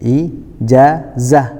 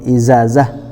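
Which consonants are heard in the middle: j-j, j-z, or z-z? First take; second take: j-z; z-z. First: It has a j sound then a z sound. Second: It has a z sound then another z sound. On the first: The speaker calls it right. "contohnya ijazah" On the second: The speaker calls it wrong. "ataupun izazah"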